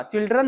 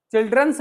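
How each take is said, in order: First: "चिल्ड्रन" said with no final s, the correct form; "चिल्ड्रन" cleanly ending on n; correct plural. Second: "चिल्ड्रंस" with an extra s at the end, marked as wrong; "चिल्ड्रंस" said the wrong way, with a final s; wrong plural. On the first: ("चिल्ड्रन" सही उच्चारण, बिना s के) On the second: ("चिल्ड्रंस" गलत उच्चारण, आखिर में s के साथ) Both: Shown as a demonstration. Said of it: "चिल्ड्रंस नहीं होता".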